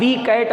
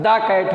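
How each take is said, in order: First: The article is said with a long ee vowel. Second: The article is said with a short uh vowel. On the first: The speaker calls it wrong. "दी cat नहीं होता है" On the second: The speaker calls it right. "दा cat होगा"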